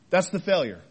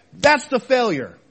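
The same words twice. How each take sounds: First: Said in the usual way. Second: Louder, punched THAT'S THE FAILURE; emphatic verdict. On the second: Real, not acted. Preacher naming the real failure, emphatic verdict. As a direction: land "That's the failure" hard. Preacher hammers his point, then repeats.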